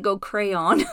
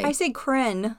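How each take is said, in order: First: "crayon" said carefully in two syllables, cray-on; careful pronunciation. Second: "cren" said as one short syllable, kren; Utah pronunciation. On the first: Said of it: "I, like, pronounce it". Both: Shown as a demonstration.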